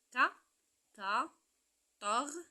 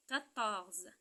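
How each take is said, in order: First: QUATORZE in three beats, qua ... tor ... ze; quatorze split into syllables. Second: Said in the usual way. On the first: Shown as a demonstration. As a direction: pause between each syllable of "quatorze". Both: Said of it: "trois syllabes".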